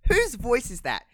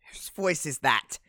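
First: High, loud mock disbelief; louder incredulous question. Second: Slow, puzzled question at normal pitch; slow wondering question. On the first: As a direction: push it up high, as if baffled. Repeats the question with alarm. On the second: Retold or imitated. Acts out puzzled reaction to voice.

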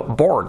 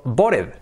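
First: Said in the usual way. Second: "bored" read as Spanish, "bo-red" in two syllables; spelling pronunciation. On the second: Shown as a demonstration. Teacher contrasting spellings for learners, "bored" said as "BO-red". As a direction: sound the e in "bored", as written. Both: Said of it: "uno se escribe board y otro bored".

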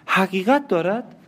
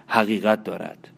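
First: High, rising, stunned question; the wife repeats the husband's confession in horror; shocked disbelief. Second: Said in the usual way. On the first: Acted. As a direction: echo it back as if you can't believe it. Marianne echoes in disbelief. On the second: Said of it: "گفتم".

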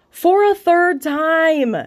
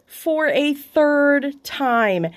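First: Much higher, louder, very slow, "third time" drawn out; slow, exaggerated self-mocking announcement; mock dramatic reveal. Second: Drawn-out, deflated self-mockery; mock echo. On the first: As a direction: announce it like a mock trailer line. Mocks herself, genius. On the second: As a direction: let it hang in disbelief. Echoes her own punchline. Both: Real, not acted.

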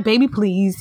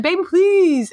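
First: Said in the usual way. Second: "please" pitched high and pleading; high pleading imitation. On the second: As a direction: beg "Baby, please" way up high and drawn. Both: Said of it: "He just said".

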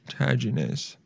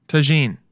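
First: "Tajines" as three syllables, TA-zhi-niz; mispronounced. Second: "Tagine" as tuh-ZHEEN; corrected pronunciation. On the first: Guessing how to say "Tajines", TA-zhi-niz. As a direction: say "Tajines" wrongly as TAZH-in-iz. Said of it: "Okay, so I was wrong". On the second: Copying the pronunciation guide, "Tagine" as tuh-ZHEEN. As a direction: say "Tagine" in two syllables, stressed ZHEEN. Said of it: "How to pronounce". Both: Real, not acted.

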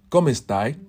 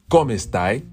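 Both takes have the same delivery.

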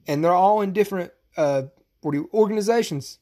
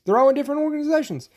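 First: Said in the usual way. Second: Fast and high, correcting himself; quick, higher restatement. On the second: Real, not acted. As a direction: blurt it out again, faster and higher.

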